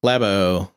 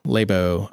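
First: "Labo" with a short a, LAB-oh; trying a pronunciation. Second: "Labo" with a long a, LAY-boh; trying a pronunciation. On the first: Host testing ways to pronounce the name, short-a "Labo". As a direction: say "Labo" to rhyme with "dab-oh", low pitched. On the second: Host testing ways to pronounce the name, long-a "Labo". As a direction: say "Labo" as "lay-bow", low pitched. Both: Shown as a demonstration. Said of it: "how do I pronounce this".

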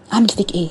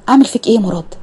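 First: Annoyed mutter. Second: Half-joking exasperation at Murad; exasperated outburst. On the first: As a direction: say اعمل فيك ايه under your breath, annoyed. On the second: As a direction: blow up with اعمل فيك ايه. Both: Acted. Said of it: "اول ما فتحته اتغاظت".

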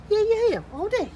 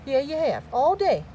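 First: Very high-pitched teasing; squeaky-high playful pet talk. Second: Playful sing-song to a pet; teasing pet talk. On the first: Repeats the tease in higher pitch. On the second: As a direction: tease the pet, slightly raised pitch. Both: Real, not acted.

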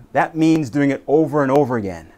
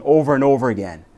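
First: Said in the usual way. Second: Quicker, pressing over and over again; over and over again, said faster with a push; faster repeat. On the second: Shown as a demonstration. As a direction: hurry the words over and over again. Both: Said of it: "I mean".

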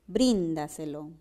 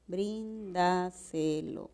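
First: Said in the usual way. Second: "bríndaselo" slowly split as brín-da-se-lo; measured, drawn-out syllable demo of "bríndaselo". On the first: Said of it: "que pronuncien adecuadamente la palabra". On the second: Shown as a demonstration. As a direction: softly separate each syllable of "bríndaselo". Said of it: "la base es un buen silabeo".

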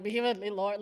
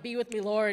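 First: The same lyric said knowingly, convicted; guilty echo. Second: A lightly sung churchy lyric, a little louder; sung worship line. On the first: Worshipper feeling convicted by the song, knowing echo. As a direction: say it like it suddenly hits home. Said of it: "and you're like". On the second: Singing a worship song in church, lightly sung. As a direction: croon it like a hymn in service. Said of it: "We're singing songs like". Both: Retold or imitated.

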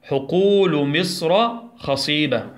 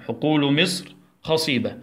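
First: Slow, clear classroom reading; teacher modelling a sentence, slowly; slow model sentence. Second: Said in the usual way. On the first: Shown as a demonstration. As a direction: read حقول مصر خصيبة slowly for children to repeat. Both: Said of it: "يلا ندخلها في جملة".

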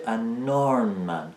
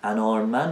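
First: "an armed man" slow, as "a nnnarmed man"; linked n-sound. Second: Said in the usual way. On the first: Shown as a demonstration. Teacher showing the linking rule, slow stretched n. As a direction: hold the n of "an" and start "armed" with it.

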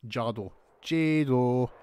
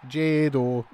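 First: "Jado" drawn out slowly, first sound like "sha-do"; testing the pronunciation. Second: "Jado" said once more, louder, first sound like "dj" in "judge"; testing the pronunciation. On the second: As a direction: land on a firmer "Jado". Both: Shown as a demonstration. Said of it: "however you want to pronounce their names".

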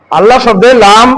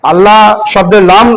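The two takes are said the same way.

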